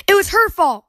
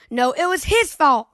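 First: Put-on high, loud child's accusing shout. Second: Put-on mild child's shouted retort; shouting. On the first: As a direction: yell the blame at her. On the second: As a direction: throw the blame back, half-raised. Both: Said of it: "pointing at each other and shouting".

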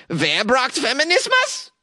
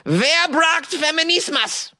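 First: Put-on high German accent, Wer braucht Feminismus asked as a real question; German-accented Wer braucht Feminismus, lifted like asking. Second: Put-on high, slow German accent, Wer braucht Feminismus falling like a statement; German-accented Wer braucht Feminismus, ending down and not asking; German accent, flat statement. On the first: Host retrying the group's name as a question, German accent. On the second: Host's second try at the group's name, German accent as a statement. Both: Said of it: "I should say it like a question then".

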